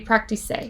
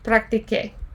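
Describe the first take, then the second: First: The consonant before the final vowel sounds like s. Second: The consonant before the final vowel sounds like k. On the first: The speaker calls it wrong. "it just wouldn't sound right" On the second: The speaker calls it right. "so that it keeps that sound"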